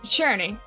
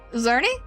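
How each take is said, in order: First: The name begins with a 'ch' sound. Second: The name begins with a 'z' sound. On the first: "Pronounced like, uh, Churney" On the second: "I'm guessing the C is silent"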